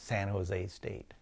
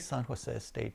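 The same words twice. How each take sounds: First: Jose is said with an American English pronunciation. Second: Jose is said with a Spanish pronunciation. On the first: It is the common way in the country. "it's very popular to say in the United States" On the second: It honors the family name. "I always say San Jose State"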